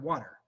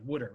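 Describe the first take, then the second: First: The word is said with a standard American pronunciation. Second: The word is said like wooder, Philadelphia style.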